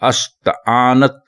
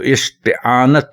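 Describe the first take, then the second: First: The word begins with an 'a' vowel. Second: The word begins with an 'i' vowel. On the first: The speaker calls it wrong. "गलत लफ्ज है" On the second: The speaker calls it right. "दुरुस्त लफ्ज है"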